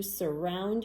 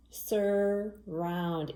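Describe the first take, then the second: First: Said in the usual way. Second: "Surround" drawn out as SUR, then ROUND; syllable by syllable. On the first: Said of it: "is the word surround". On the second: Shown as a demonstration. Teacher counting syllables with children, "Surround" split into two long beats. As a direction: stretch both syllables of "Surround" evenly. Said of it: "Count your syllables".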